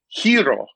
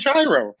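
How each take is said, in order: First: It is said the traditional Greek way. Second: It is said the anglicized English way. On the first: This is the way it is supposed to be said. "I know it's supposed to be hero" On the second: This is the way the speaker chooses to say it. "but I'm going to say gyro"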